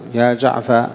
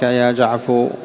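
First: The name ends in an a vowel. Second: The name ends in a u vowel. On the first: "فتحا" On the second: "ضما"

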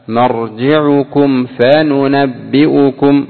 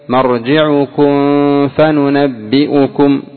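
First: The m is fully closed and clearly sounded. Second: The m is hidden with nasal sound into f. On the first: The speaker calls it right. "الآن مرجعكم ميم ساكنة بعدها فاء" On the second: The speaker calls it wrong. "لو أخفيت مرجعكم فننبئكم، ما في إخفاء"

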